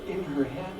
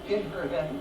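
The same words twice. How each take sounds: The two takes are said the same way.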